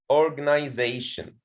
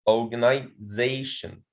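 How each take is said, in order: First: Said in the usual way. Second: "organization" broken before "zation"; "organization" split in two, organi - ZAtion; stress on fourth syllable. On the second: Shown as a demonstration. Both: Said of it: "there is a primary stress on the fourth syllable".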